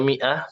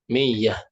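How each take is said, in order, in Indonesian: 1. Bunyi tengahnya hamzah. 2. Bunyi tengahnya bunyi ya. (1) "mengubah hamzah menjadi ya. Di antaranya mi'ah" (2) "mereka bilangnya apa? Miyah"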